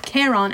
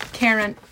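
First: "Charon" with a full open second vowel; full name ending. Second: "Charon" with a reduced second vowel; unstressed name ending. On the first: Narrator's corrected retake of the name. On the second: Narrator says name, then corrects it. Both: A narrator's reading.

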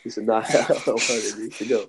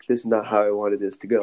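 First: Repeats the line through a real laugh; laughing at his own bad luck. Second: Said in the usual way. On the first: Real, not acted. Retelling his plan to a friend, laughing.

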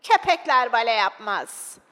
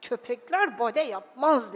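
First: Loud, slow, disapproving call; acted shout. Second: Grumbled in a put-on father's voice; grumbling. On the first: Spectator in the back rows heckling the dog, shouting. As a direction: heckle the stage in a put-on voice. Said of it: "diye bağırdı". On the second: Father grumbling at the dog on stage, grumpy. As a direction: grumble it under your annoyance. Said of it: "Babam homurdanarak".

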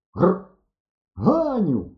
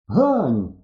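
First: High-pitched call after someone. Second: Eager call on running up; hurried call. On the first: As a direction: call her name, voice lifted high. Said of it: "гукнув я". (гукаючи, високим голосом) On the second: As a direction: call her name firmly, closer by. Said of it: "підбіг я до неї". (гукає, підбігши) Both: A narrator's reading.

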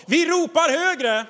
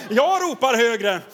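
First: Calling louder. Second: Repeated louder. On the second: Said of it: "Det var inte många amen där". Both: Shown as a demonstration.

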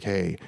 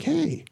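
First: Low, subdued greeting; retold downcast hello; forlorn reply. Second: High-pitched, friendly hail; retold cheery hello; upbeat greeting. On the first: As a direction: answer lower, a little dejected. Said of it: "he has this forlorn look". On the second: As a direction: call it out lightly, pitched way up. Acts out his own greeting.

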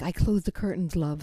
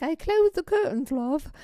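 First: Said in the usual way. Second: Put-on high-pitched British barmaid accent. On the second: Bartender reassuring the runaway, high-pitched British accent. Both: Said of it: "she said it in the British accent".

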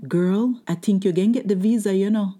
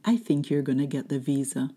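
First: Higher-pitched, animated woman butting in; lady in line. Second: Said in the usual way. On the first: Retold or imitated. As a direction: imitate the excited lady behind you in line. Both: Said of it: "Let me interpret that".

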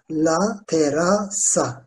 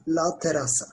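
First: "La terasa" slowly, split into syllables. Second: Said in the usual way. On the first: Shown as a demonstration. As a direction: spell out "La terasa" by sound, piece by piece. Teacher breaks the word into syllables. ("La terasa" sözünü yavaşça hecele)

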